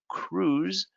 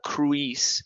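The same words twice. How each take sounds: First: The letter I is silent. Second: The letter I is sounded. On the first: The speaker calls it right. "It's cruise" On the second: The speaker calls it wrong. "It's not cruise"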